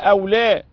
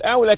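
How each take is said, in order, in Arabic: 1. يُنطق ككلمتين منفصلتين. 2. يُنطق ككلمةٍ واحدةٍ متصلةٍ. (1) "هكذا أو لا" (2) "لا تقل أولى كلمة واحدة تغير المعنى"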